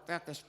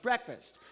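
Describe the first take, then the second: First: Said in the usual way. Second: Breakfast repeated higher, in disbelief; echoing the puppet's odd answer; incredulous echo. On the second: Real, not acted.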